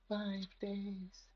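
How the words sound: It imitates the little girl from The Ring.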